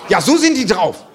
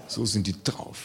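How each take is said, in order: First: Said in the usual way. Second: Much lower, softer mutter of the same line; muttered aside. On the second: Shown as a demonstration. Comedian repeats his complaint about schoolkids as a low mutter. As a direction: repeat it under your breath.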